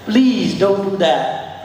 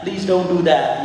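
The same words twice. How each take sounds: First: Slow pleading please; pleading, drawn out. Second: Said in the usual way. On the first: Shown as a demonstration. Riding coach voicing a plea to the horse, slow and pleading. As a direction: beg the horse slowly, stretching please. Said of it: "pleading demo then plain". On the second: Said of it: "second plain take".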